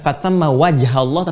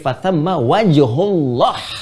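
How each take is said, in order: First: The vowel after wajh is an a sound. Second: The vowel after wajh is a u sound. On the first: The speaker calls it wrong. "Bukan fathamma wajhallah" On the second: The speaker calls it right. "tapi fathamma wajhullah"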